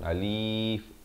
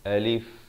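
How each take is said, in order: First: The vowel is drawn out long. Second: The vowels are kept short. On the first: The speaker calls it wrong. "jangan ada yang dipanjang je alif" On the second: The speaker calls it right. "mestilah alif"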